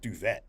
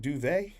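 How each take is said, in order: First: The final T is clearly pronounced. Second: The final T is not pronounced. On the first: The speaker calls it wrong. "It's not duvet" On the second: The speaker calls it right. "It's one of those where the T is silent"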